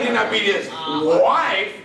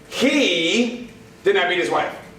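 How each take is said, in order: First: The word wife is stressed. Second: The word he is stressed. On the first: He beat someone else instead. "it was his sister he beat up" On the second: Someone else did it. "That means somebody else did"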